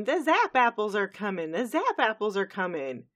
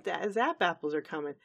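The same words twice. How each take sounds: First: Raised, louder excited cry; mock scream. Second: Lightly voiced Applejack. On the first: Granny Smith running around announcing the harvest, mock screaming. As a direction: call it out as an urgent announcement. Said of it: "running around screaming". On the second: Applejack answering Granny's alarm, lightly voiced. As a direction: say it evenly, as a mild reply. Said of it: "I believe it's Applejack goes".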